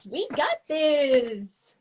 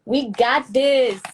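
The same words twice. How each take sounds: First: Higher, very slow, with a different tone; slow, lifted chant of encouragement; stretched-out sing-song. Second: Drawn-out hype. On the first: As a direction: sing it out long and airy. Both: Shown as a demonstration.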